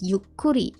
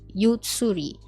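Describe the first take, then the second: First: A short pause replaces the tsu sound. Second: The tsu is spoken as a full syllable. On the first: The speaker calls it right. "you hear that the pronunciation is yukuri" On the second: The speaker calls it wrong. "and not yutsuri"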